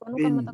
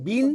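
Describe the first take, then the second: First: The vowel is a lower, lax i sound. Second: The vowel is a high, tense i sound. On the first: The speaker calls it right. "ini bacaannya rendah" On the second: The speaker calls it wrong. "bukan i tinggi seperti bahasa Indonesia"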